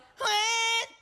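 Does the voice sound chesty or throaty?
throaty. The voice is tight, held in the throat. The speaker calls it wrong. "Kaysa yung"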